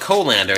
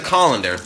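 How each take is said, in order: First: Colander is said the West Coast way. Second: Colander is said in the speaker's usual way.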